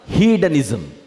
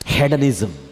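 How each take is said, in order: First: The first vowel is a long 'ee' sound. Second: The first vowel is a short 'eh' sound. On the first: "దీనిని హీడనిజం అని కూడా పలుకుతారు" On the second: "రెండు pronunciations"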